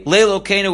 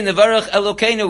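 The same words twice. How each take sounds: First: "lelokeinu" with an L sound at the front; added lamed. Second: Said in the usual way. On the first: Shown as a demonstration. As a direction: start "lelokeinu" on a clear "lay" before "lokeinu". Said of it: "with a lamed". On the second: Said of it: "We say".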